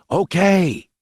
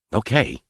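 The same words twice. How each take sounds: First: High, drawn-out call. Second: Said in the usual way. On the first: A narrator's reading. Boy calling to hidden gunmen, calling out. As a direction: call OKAY out into the distance. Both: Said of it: "But this time in a loud call".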